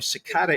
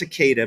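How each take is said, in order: First: It rhymes with enchilada. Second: It does not rhyme with enchilada. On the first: It is bent to fit a rhyme in a song. The speaker calls it wrong. "cicada enchilada rhymes really good. I know that's not how you say it" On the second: This is the usual way to say it. The speaker calls it right. "you say it's cicada"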